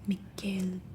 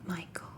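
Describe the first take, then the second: First: The name is pronounced the Swedish way. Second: The name is pronounced the English way. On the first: The speaker calls it right. "the Swedish name, the original name" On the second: The speaker calls it wrong. "not Michael"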